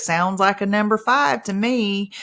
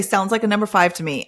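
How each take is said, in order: First: Drawn out slowly. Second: Said in the usual way. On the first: Shown as a demonstration. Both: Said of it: "I usually say it like this".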